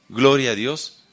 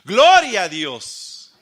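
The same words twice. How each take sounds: First: It is said plainly, without force. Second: It is exclaimed loudly with force.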